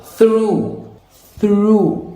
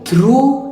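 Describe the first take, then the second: First: "through" with airy th, tongue between teeth; American TH. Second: "through" with a hard t for th; Indian-accented TH. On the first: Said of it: "put it between the two". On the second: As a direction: say "through" like troo. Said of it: "it's gonna sound Indian". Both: Shown as a demonstration.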